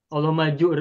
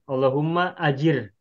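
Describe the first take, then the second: First: The second word is a short 'jur' with no hamzah. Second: The second word is 'ajir', starting with a hamzah. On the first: The speaker calls it wrong. "kalau dibaca Allahumma jur ... tidak tepat" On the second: The speaker calls it right. "Yang lebih tepat adalah ajir"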